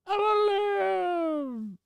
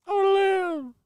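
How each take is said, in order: First: Long drawn-out squeaky cry; slow high wail. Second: High cartoon plea; squeaky high voice. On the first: Acted.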